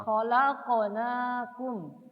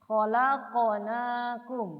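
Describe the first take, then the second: No difference in how they are said.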